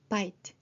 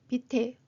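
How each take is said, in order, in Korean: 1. 단어는 t 소리로 끝납니다. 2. 마지막 t 뒤에 모음 소리가 붙습니다. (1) "트까지만 소리 나며" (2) "이게 아니라"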